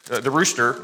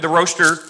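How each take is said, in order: First: Rooster said ROO-ster with an oo sound; rooster, corrected. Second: Roaster said ROH-ster with a long o; a slip: roaster pronounced like ROAST; roaster, slip of the tongue. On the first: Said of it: "not the roaster, the rooster". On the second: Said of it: "not the roaster". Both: Real, not acted.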